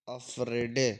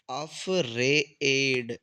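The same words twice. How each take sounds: First: अफ्रेडे sounded out with a clear e at the end; the wrong take, final e pronounced; misreading with extra e. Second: अफ्रेड drawn out very slowly, ending on the d with no e; slow model pronunciation without the final e; correct reading. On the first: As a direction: read it as अफ्रेडे, ending on an e vowel. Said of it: "इसमें एक गलती है।". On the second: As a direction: stretch अफ्रेड slowly and stop on the d. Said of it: "ए की मात्रा नहीं आएगी।". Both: Shown as a demonstration.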